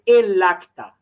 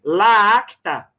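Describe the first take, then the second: First: "el acta" run together as "e-lacta"; smooth linking. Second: "la acta" with a long doubled A; clashing hiatus. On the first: Teacher giving the correct form, "el acta" smoothly linked. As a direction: link the L of "el" straight into "acta". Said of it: "Então, eu digo assim". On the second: Teacher showing what to avoid, clashing hiatus in "la acta". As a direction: stretch the two A sounds in "la acta". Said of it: "porque vai ficar feio o som". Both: Shown as a demonstration.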